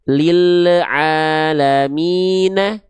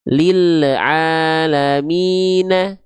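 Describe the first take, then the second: No difference in how they are said.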